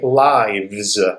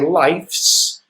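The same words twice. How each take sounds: First: It ends with a v sound then s. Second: It ends with an f sound then s. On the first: The speaker calls it right. "the F becomes a V" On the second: The speaker calls it wrong. "You don't say"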